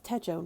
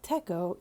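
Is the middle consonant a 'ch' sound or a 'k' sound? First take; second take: ch; k. First: The middle consonant is a 'ch' sound. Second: The middle consonant is a 'k' sound. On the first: The speaker calls it right. "when you use it as Techo" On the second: The speaker calls it wrong. "not Teko"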